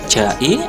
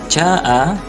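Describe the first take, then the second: First: The word ends in an i vowel. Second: The word ends in an a vowel. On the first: The speaker calls it wrong. "tidak boleh ja'i" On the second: The speaker calls it right. "ja'a harus di fathah"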